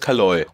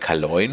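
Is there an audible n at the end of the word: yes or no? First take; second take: no; yes. First: The word ends without an n sound. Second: The word ends with an n sound. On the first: This is how the word seemed to sound. The speaker calls it wrong. "Ich habe das N nie gehört" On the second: This is how the word is written. The speaker calls it right. "dass überall Kaloin steht"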